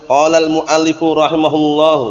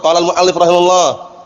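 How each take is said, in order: First: The phrase is said slowly and carefully. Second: The phrase is said quickly, dropping a vowel. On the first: "Kalau harus pelan-pelan mungkin bisa aja benar" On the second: "Tapi kalau kita cepat"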